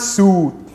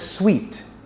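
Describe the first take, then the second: First: The word sounds like suit. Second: The word sounds like sweet. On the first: The speaker calls it wrong. "It's not suit" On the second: The speaker calls it right. "It's pronounced as sweet"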